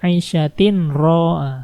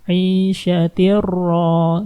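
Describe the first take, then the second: First: A clear n sound is heard before the r. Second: The n sound merges into a doubled r. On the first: The speaker calls it wrong. "Nggak boleh 'ishatin ro" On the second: The speaker calls it right. "Harus masukin langsung ke ro"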